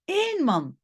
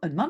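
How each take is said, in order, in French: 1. Le premier mot est prononcé avec un accent fort. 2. Le premier mot est prononcé faiblement, sans accent. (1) "je peux mettre un accent sur le O" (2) "pas juste un homme"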